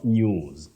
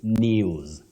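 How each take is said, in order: First: The vowel is a plain 'oo' sound. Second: The vowel is a gliding 'you' sound. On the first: The speaker calls it wrong. "not news" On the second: The speaker calls it right. "we also say news"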